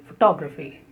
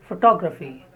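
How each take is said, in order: No difference in how they are said.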